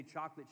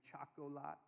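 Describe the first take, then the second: First: Said in the usual way. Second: "Chocolat" said softly as choc-o-lah; "Chocolat" in a quiet child's mispronunciation; little girl's pronunciation. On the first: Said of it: "she didn't say chocolate". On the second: Retold or imitated. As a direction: mimic a toddler saying "Chocolat", ending on an open "lah". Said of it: "She would say".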